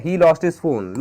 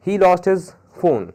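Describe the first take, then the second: First: Said in the usual way. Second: Very slow, each word laid out; slow example read. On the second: Shown as a demonstration. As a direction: read the example slowly for the class. (उदाहरण बहुत धीरे पढ़ना) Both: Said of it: "more examples".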